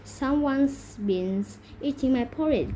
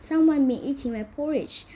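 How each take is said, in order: First: It is said in a huge, deep growl. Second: It is said in a medium-sized growl.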